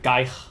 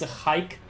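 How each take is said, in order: First: It begins with a hard g sound. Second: It begins with a throaty ch sound. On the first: The speaker calls it wrong. "she pronounces the G as a G and then the K as a ch" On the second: The speaker calls it right. "in Dutch, the G would be a ch"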